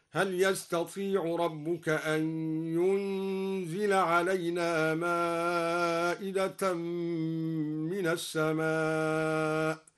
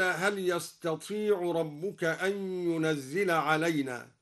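First: ينزل read yunzil without doubling the ز; light ينزل. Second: Said in the usual way. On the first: Shown as a demonstration. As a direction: give ينزل a single z, from أنزل. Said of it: "قرأ الدوري بتخفيف ينزل من أنزل هكذا". (تخفيف ينزل) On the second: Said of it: "بتخفيف ينزل".

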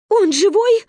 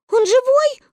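First: Loud, high anxious call; mother's shout. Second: Put-on very high, loud anxious children's shout; children's tearful cry. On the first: Wife calling from the shore, anxious shout. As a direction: shout the question across the water. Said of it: "кричала мама с берега". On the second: Children shouting from above, tearful alarm. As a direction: cry out like frightened little kids. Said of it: "кричали мы сверху и обливались горючими слезами". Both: A narrator's reading.

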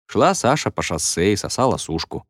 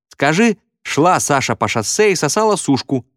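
First: Said in the usual way. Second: Put-on high girlish voice; high-pitched schoolgirl; girl piping up. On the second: A narrator's reading. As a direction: pipe up from the crowd with a dare. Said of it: "подала голос какая-то девочка".

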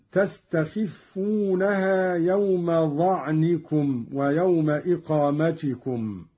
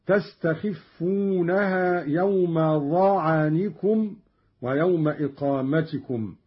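First: Said in the usual way. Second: ظعنكم with an "a" after the ayn, "za'anikum"; Qalun's fatha reading. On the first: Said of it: "قرأ قالون بفتح العين". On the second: Shown as a demonstration. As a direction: open the ayn of ظعنكم into its own syllable, "za-'a-ni-kum". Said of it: "قرأ قالون بفتح العين هكذا". (ظعنكم بفتح العين)

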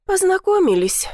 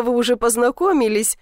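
First: High, tight repeat through clenched teeth; bitterly spitting the word Познакомились out; through gritted teeth. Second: Said in the usual way. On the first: A narrator's reading. Granddaughter answering grandma through gritted teeth. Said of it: "процедила я сквозь зубы".

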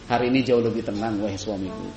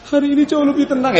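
First: Calm and smiling. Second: High, teary mock sob, louder; hammed-up weeping, pitched up; mock crying. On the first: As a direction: reassure the husband with a smile. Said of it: "Sambil senyum, sambil senang". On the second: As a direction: fake a tearful wail of the news. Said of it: "Bukan sambil nangis". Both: Shown as a demonstration.

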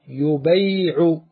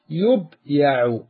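First: يبيع drawn out as "yu-bay-'u"; vowel shifted back. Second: يبيع said slowly as "yub-ya'u"; underlying passive form. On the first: Teacher shows how the word becomes, slow "yu-bay'u". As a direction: move the a onto the b of يبيع, holding bay long. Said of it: "انقل حركة الياء". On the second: Teacher builds the passive for students, slow split "yub-ya'u". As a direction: close يبيع on the b, then ya'u. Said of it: "ونفتح ما قبل آخره". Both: Shown as a demonstration.

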